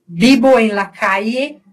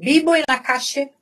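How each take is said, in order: First: The ll is said like a y sound. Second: The ll is said like a zh sound. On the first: "aí eu tô falando com yeísmo" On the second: "Na Argentina seria calle"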